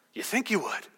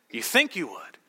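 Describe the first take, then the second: First: "you" leaned on, soft and doubting; "YOU think you would", rest softer; stress on you. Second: "think" weighted, lower and doubting; "you THINK you would", questioning their certainty; stress on think. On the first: Preacher to congregation, doubting stress on "you". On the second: Preacher to congregation, lower, stress on "think". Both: Shown as a demonstration.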